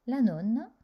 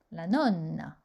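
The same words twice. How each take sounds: First: Nonna said as nona, with one short N; single consonant. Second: Nonna with a long, held double N; doubled consonant. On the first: (« nonna » avec un seul n court, comme nona) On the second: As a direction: hold the NN in nonna. (« nonna » avec un double n bien prolongé) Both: Shown as a demonstration. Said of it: "il faut prolonger".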